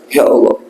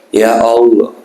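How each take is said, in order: First: It is said pleadingly, full of remorse. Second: It is said flatly, without feeling. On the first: The speaker calls it right. "Yang betul-betul penyesalan" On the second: The speaker calls it wrong. "Flat itu"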